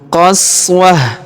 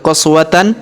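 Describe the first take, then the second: First: The word ends in a soft stopped h. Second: The word ends with a full -tan syllable. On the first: The speaker calls it right. "berubah menjadi ha sukun" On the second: The speaker calls it wrong. "bukan lagi dibaca qaswatan"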